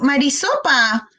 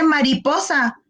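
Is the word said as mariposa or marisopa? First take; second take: marisopa; mariposa. First: The middle sounds are swapped: marisopa. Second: The sounds are in normal order: mariposa. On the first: A child with a phonological disorder says it this way. The speaker calls it wrong. "mira mamá, Mari, Marisopa" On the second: This is the standard form of the word. The speaker calls it right. "no se dice así, se dice mariposa"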